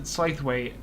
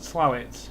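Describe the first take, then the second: First: The name is said fully, following its spelling. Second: The name is said in a short, contracted form. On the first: A newcomer reading the name from its spelling. "first time you see it, you'll pronounce it as Slaithwaite" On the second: The way local people say the name. "some of the locals pronounce it as Slowit"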